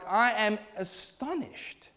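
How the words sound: It is said with strong, forceful intensity. The speaker is deeply shocked and offended. The speaker calls it right. "a very, very strong term"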